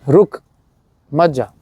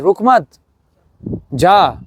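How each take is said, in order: First: It is said without a pause before 'jaa'. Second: It has a pause before 'jaa'.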